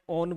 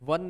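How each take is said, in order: First: It is pronounced like the word 'own'. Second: It is pronounced like the word 'won'. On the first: The speaker calls it right. "ओन बोलना है" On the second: The speaker calls it wrong. "वन नहीं बोलना है"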